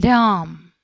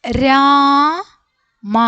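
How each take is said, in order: First: രാം as one syllable closing on M; read joined together. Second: രാ held long, high and loud, then separate മ; letter by letter. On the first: Teacher shows how it reads together, one joined രാം. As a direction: blend രാം into a single word with no final 'a'. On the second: Teacher sounds out each letter before joining, slow raised രാമ. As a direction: spell out രാമ slowly, pausing before a full 'ma'. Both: Shown as a demonstration. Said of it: "ഒന്നിച്ച് വായിക്കുമ്പോൾ എങ്ങനെയാണ്?".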